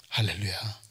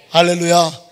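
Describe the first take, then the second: First: 할렐루야 said softly and low; soft hallelujah. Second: 할렐루야 said louder and firm; firm hallelujah. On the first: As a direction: murmur 할렐루야 quietly. Soft hallelujah after whisper. (할렐루야를 낮고 조용하게) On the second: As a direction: proclaim 할렐루야 with confidence. (할렐루야를 힘차게) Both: Acted.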